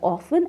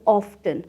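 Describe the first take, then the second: First: The word is said without a t sound. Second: The word is said with a t sound. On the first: "ऑफन को लोग दो तरह से pronounce करते हैं" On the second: "ऑफन को लोग दो तरह से प्रोनाउंस करते हैं"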